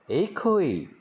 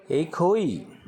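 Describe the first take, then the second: First: एक होई repeated higher and clear; Manipuri word repeated. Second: एक होई said higher, set apart; Manipuri word demo. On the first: Teacher repeats एक होई for learners to copy. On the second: Teacher pronounces the Manipuri word एक होई for Hindi learners. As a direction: clear high demo of एक होई. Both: Shown as a demonstration. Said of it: "pronounce किया जाता है".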